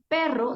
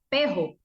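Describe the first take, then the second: First: The r is pronounced as a trilled r. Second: The r is replaced by a J sound. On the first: This is the correct pronunciation. The speaker calls it right. "En lugar de decir perro" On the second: The child substitutes one sound for another. The speaker calls it wrong. "Cambiaba la R por la J"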